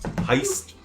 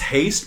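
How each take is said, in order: First: The word is said in a German accent. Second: The word is said in an English accent. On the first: "pronounced with a German accent" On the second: "It's Haste"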